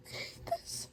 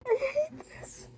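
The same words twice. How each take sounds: First: Soft, unvoiced-sounding tearful whisper; heartbroken whisper. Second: Very high tearful wail; real high-pitched anguish; heartbroken. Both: Real, not acted. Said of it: "I'm heartbroken".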